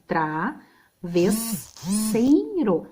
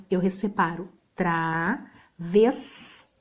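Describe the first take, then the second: First: Travesseiro split slowly into its syllables, tra-ves-sei-ro. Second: 1 slow explaining. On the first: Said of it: "nesse caso o I vai ficar junto". (Travesseiro separado em sílabas, bem devagar) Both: Shown as a demonstration.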